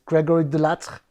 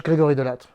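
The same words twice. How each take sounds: First: Name said the English way; English accent. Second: Name said the French way; French pronunciation. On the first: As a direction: give the name an English pronunciation. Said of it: "I don't know why I take the English accent". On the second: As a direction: switch into native French for the name. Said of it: "Uh, in French". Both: Shown as a demonstration.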